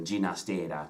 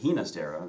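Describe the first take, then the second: First: The name starts with a soft j sound. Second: The name starts with a breathy h sound. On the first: This is the pronunciation the composer himself preferred. "Catalan pronunciation, uh, with the soft j sound, as in George" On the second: This assumes the composer was a Spanish speaker. "we say Ginastera because we assume he's a Spanish speaker"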